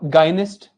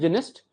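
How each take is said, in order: First: The first syllable is said like 'guy'. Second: The first syllable is said like 'jih'.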